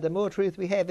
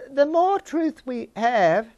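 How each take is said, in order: First: Said in the usual way. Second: Slow, raised, emphatic "The more truth we have"; preacher driving the point home slowly; slow emphasis. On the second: Real, not acted. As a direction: lean on "more" and draw the phrase out, higher and louder. Emphatic preaching point, then repeated.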